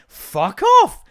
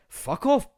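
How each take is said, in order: First: Very high, loud comic yell; high-pitched fed-up holler; exasperated shout. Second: High-pitched annoyed dismissal; exasperated but not shouted; irritated retort. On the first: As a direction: explode at the nagging gadget. Loses temper with the watch. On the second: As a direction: brush it off, voice pitched up. First retort to the watch. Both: Acted.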